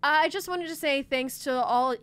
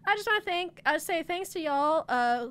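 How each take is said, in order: First: It is read in a neutral accent. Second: It is read in a light Southern accent.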